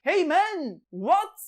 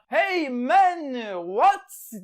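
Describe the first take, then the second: First: High, loud mock shout; French calling to the English, loud high shout; shouted hey man. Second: Loud, high mock shout; shouted hey man. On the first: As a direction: bellow it across the Channel. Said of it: "diye bağırıyorlarmış". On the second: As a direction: call out across the water. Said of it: "diye bağırıyorlar".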